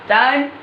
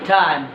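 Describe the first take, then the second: First: টাইম with an unaspirated hard ট; টাইম opening on Bangla ট, not ঠ; mispronounced T. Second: টাইম with a breath-puffed T, like ঠ; টাইম opening on ঠ, not ট; correct aspirated T. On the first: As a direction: say the T in টাইম without any puff of air. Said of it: "আমি ভুল উচ্চারণ করবো". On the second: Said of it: "এটা ঠ, এটা উচ্চারণ কি হবে". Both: Shown as a demonstration.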